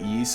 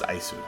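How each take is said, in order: First: The name is said without the 'Aisu' sounds. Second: The name is said with the sounds 'Aisu'. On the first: This is how the speaker used to say it. The speaker calls it wrong. "for the longest time, I actually called it Ys" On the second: This is how it is said in Japan. The speaker calls it right. "in Japan, it is pronounced Aisu"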